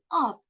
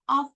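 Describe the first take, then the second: First: It has a strong, full vowel. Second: It has a weak, reduced vowel.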